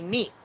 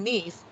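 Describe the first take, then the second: First: The final S sound is left off. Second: The final S sound is clearly pronounced. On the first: The speaker calls it wrong. "You failed to pronounce the letter S" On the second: The speaker calls it right. "Instead of saying niece"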